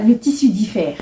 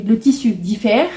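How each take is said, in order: First: Said in the usual way. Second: Le tissu diffère said slowly, each word weighed; slow down and lean on tissu diffère; slow emphatic repeat. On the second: Shown as a demonstration. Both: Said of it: "J'ai vérifié".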